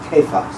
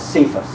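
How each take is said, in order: First: The name begins with a hard k sound. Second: The name begins with a soft s sound. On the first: The speaker calls it right. "it actually is pronounced, the, the Aramaic is Cephas" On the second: The speaker calls it wrong. "lectors always mispronounce it as Cephas because it's spelled with a C"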